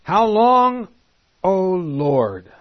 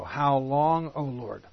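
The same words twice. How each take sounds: First: Higher and louder, crying out to God; anguished cry. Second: Said in the usual way. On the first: Acted. Preacher voices the martyrs crying to God, loud and high. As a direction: call it out as a desperate plea. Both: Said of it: "Here's the first echo".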